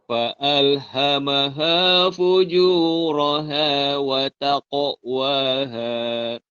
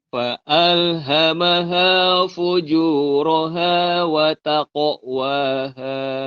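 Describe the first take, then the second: No difference in how they are said.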